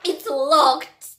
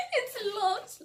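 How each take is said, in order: First: Loud, higher punchline cry; exclaimed reveal. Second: High voice breaking with laughter; laughing. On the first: Retold or imitated. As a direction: land the reveal with a big burst. Reveals the locked door. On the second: Real, not acted. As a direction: repeat it through helpless laughter. Repeats it while cracking up.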